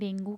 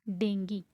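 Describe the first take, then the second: First: The word ends in an 'oo' sound. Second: The word ends in an 'ee' sound. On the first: This is how it is said in Hindi. The speaker calls it wrong. "ज़्यादातर हम डेंगू कहते हैं" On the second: This is how it is said in English. The speaker calls it right. "In English this called बी डेंगी"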